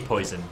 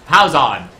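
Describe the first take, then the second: First: It sounds like the English word 'poison'. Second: The first part sounds like 'pwah', then 'zone'. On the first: The speaker calls it wrong. "I just say poison" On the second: The speaker calls it right. "it's pronounced like P W A H, something like Pow Zone"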